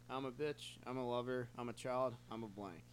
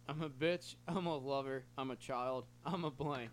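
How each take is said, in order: First: It is read at a fast pace. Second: It is read at a slow pace.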